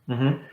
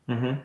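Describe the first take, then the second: Both takes have the same delivery.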